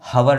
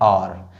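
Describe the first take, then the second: First: The word begins with an h sound. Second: The word begins directly with a vowel. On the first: The speaker calls it wrong. "लेकिन ये हवर नहीं है" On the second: The speaker calls it right. "ये है और"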